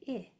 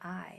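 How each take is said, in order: First: The vowel is short, like in 'it'. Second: The vowel is long, like 'eye'. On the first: The speaker calls it right. "It is a short vowel sound" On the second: The speaker calls it wrong. "It's long sound"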